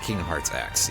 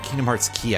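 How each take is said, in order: First: The last word sounds like 'ex'. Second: The last word sounds like 'key'. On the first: The speaker calls it wrong. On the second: The speaker calls it right. "I think would be the pronunciation on that"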